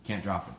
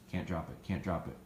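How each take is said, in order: First: Said in the usual way. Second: Low and soft, an under-the-breath reminder to the dog; soft repeated reminder. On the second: Shown as a demonstration. Trainer reminding the retrieving dog to hold, low and soft. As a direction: murmur it lower and softer, almost to yourself. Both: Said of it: "so I say hold to remind them".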